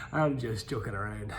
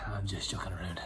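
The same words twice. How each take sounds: First: Said in the usual way. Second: Soft whispered repeat; whispering. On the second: Shown as a demonstration. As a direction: whisper it to yourself.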